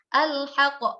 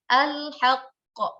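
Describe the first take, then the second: First: A single final q is bounced, not doubled. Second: The first q is held, the second bounced. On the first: The speaker calls it wrong. "Itu qafnya hanya satu" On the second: The speaker calls it right. "qaf pertama sukun, uh, qaf kedua baru kita pantulkan"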